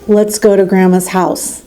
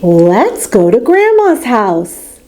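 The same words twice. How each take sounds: First: It is said in a flat monotone. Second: It is said with lively, varied pitch. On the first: The speaker calls it wrong. "Dora doesn't talk in a monotone way. She doesn't say" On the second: The speaker calls it right. "She says"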